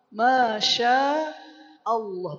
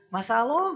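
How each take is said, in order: First: The consonant is pronounced as sh. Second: The consonant is pronounced as plain s. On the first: The speaker calls it right. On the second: The speaker calls it wrong.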